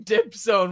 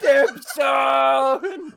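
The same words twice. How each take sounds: First: Retold scream. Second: "Dip zone" yelled much higher and louder, laughing; screaming. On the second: Retold or imitated. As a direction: belt out "Dip zone" like the drunk friend did. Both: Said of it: "He was screaming".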